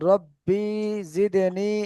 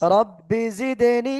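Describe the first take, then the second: First: The vowel in rabbi is drawn out long. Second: The vowel in rabbi is kept short. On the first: The speaker calls it wrong. "অনেকে কিন্তু টেনে পড়েন" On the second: The speaker calls it right. "এ টানবিহীন"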